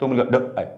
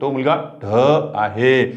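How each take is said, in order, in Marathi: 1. ढ हा शब्द लहान आणि साधा म्हटला जातो. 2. ढ हा शब्द लांबट ओढून म्हटला जातो. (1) "असं नाही म्हटलं" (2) "हे लांबट उच्चाराचे निघाले"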